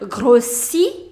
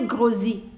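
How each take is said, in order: First: The middle consonant sounds like an S. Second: The middle consonant sounds like a Z. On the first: The speaker calls it right. "pronounce it as S, S, not Z" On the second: The speaker calls it wrong. "Don't say grossi, no"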